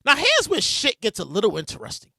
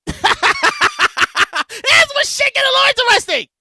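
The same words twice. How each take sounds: First: Said in the usual way. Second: High, hyped-up announcement; hyped-up repeat. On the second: Real, not acted. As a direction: hype up the story to come, pitched high. Hyped repeat after his laugh.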